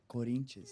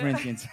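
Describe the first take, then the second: First: The name is said with a Brazilian Portuguese pronunciation. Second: The name is said with an English pronunciation. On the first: "you got a lot of pronunciation" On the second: "my British people"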